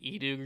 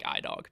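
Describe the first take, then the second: First: The name begins with an 'ee' sound. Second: The name begins with an 'eye' sound. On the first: This is the technically correct pronunciation. "I think it's technically pronounced like eDog or something" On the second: It sounds like a product from the tech company. "I like iDog because it makes me feel like it's an Apple product"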